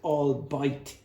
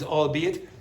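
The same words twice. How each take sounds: First: It is said with a German-sounding pronunciation. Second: It is said the standard English way. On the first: The speaker calls it wrong. "sort of trying to sound German" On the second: The speaker calls it right. "the pronunciation is albeit"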